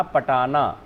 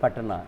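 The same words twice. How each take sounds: First: पटाना with the middle vowel sounded long; every vowel sounded. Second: पटना in two syllables, pat-naa, low and soft; silent middle vowel. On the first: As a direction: break पटाना into separate full syllables, pa-taa-naa. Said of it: "अगर इसको हम तोड़ते अलग-अलग". (पटाना, हर अक्षर का स्वर पूरा) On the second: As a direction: run ट straight into ना in पटना. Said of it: "यहाँ पर लोप हो गया". (पटना, बीच का स्वर लुप्त) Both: Shown as a demonstration.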